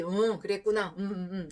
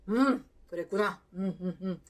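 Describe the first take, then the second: First: A hint of a robot, 그랬구나 without feeling; soulless robotic reply. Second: A hint of robotic, soulless 그랬구나; robotic reply. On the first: Husband nodding along without soul, lightly robotic. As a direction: nod along with an empty 그랬구나. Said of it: "로봇처럼 뭐 영혼 없이". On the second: Husband's first tries at empathy, mildly robotic. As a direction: say 그랬구나 flat like a robot, no feeling. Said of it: "로봇이었어요".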